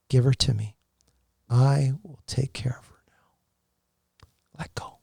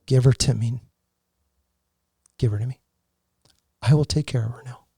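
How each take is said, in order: First: Slow, breathy whisper of a divine voice; a man whispering the words he heard from God while bathing his dying wife. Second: Voice of God. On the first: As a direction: whisper it slowly, like a presence in the room. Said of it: "I heard that, like, three times". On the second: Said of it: "All I heard was". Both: Retold or imitated.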